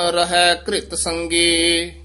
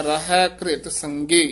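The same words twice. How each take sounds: First: Said in the usual way. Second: ਘ੍ਰਿਤ as one cluster, "ghrit", no vowel between ਘ and ਰ; ਘ੍ਰਿਤ, ਘਿਰਤ ਨਹੀਂ; ਘ੍ਰਿਤ with joined r. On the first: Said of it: "ਇਸ ਨੂੰ ਘਿਰਤ ਨਹੀਂ ਕਹਿਣਾ". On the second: Shown as a demonstration. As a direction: say ਘ੍ਰਿਤ tight, not ਘਿਰਤ. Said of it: "ਰਾਰੇ ਨੂੰ ਸਿਹਾਰੀ ਲਾ ਕੇ ਬੋਲਣਾ ਹੈ".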